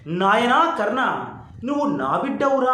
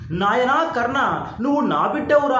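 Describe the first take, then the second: First: A mother's tender call again. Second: A mother's tender call. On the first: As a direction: linger on నాయనా as if hearing it at last. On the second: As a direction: savour each word as if hearing it from mother. Son echoes mother's words, moved. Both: Retold or imitated.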